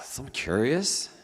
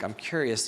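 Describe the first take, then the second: First: It sounds irritated, with a sigh. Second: It sounds friendly and open.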